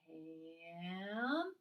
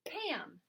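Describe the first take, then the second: First: The word is drawn out slowly, sound by sound. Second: The word is said quickly as one unit. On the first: "Say it slowly" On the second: "fast like a word"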